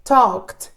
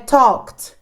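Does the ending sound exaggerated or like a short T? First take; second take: short T; short T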